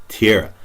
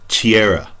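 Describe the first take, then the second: No difference in how they are said.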